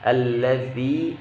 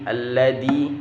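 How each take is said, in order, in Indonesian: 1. Konsonan tengahnya berbunyi th yang lembut. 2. Konsonan tengahnya berbunyi d. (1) "huruf zal itu lidahnya maju sedikit" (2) "tidak boleh alladhi"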